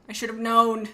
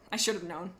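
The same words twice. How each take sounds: First: Louder exasperated repeat of I should have known. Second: Said in the usual way. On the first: Real, not acted. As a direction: blurt it out louder the second time.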